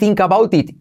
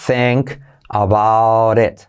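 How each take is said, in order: First: The vowel in 'think' sounds like 'ee'. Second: The vowel in 'think' sounds like 'e'. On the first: The speaker calls it wrong. "vas a decir think about it, y no" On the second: The speaker calls it right. "se dice think about it, think, y como E"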